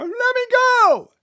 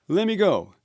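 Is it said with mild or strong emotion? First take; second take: strong; mild. First: It is said with strong emotion. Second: It is said with mild emotion.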